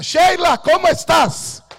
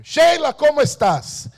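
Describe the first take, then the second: First: High, loud, urgent call; shouting her name. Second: High, loud hail; loud ringing call down the phone; shouting her name. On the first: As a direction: call out to her as if across a room. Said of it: "yo gritaba". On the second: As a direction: cry out her name in triumph. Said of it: "yo gritaba el nombre de ella". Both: Retold or imitated.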